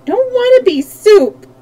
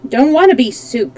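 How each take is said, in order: First: Put-on high, loud child's wail; plaintive cry, pitched way up. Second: Put-on mildly whining child's protest; slightly raised, plaintive refusal; beginning to cry. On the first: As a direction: wail the refusal like a frightened small child. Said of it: "wailed Button-Bright again". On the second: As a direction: protest as if tears are starting. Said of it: "beginning to cry". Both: A narrator's reading.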